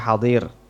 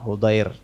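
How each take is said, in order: First: An a vowel follows the first h. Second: An u vowel follows the first h. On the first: The speaker calls it wrong. "bukan hidir atau hadir" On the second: The speaker calls it right. "ha yani Hudair"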